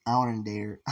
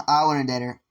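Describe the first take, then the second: First: Said in the usual way. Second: Louder, laughing through it; laughing declaration. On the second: Retold or imitated. Guy says again that he wants to date her, louder and laughing. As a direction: blurt it out with a laugh.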